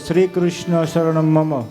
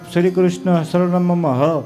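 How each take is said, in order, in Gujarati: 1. વાક્ય 'mama' પર પૂરું થાય છે, કોઈ વધારાનો અવાજ નથી. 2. વાક્ય છેલ્લે વધારાના શ્વાસવાળા 'h' અવાજ સાથે પૂરું થાય છે. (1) "આટલું બોલો ને" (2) "પાછળ હ બોલો ને તો એનો અર્થ શું થઈ જાય?"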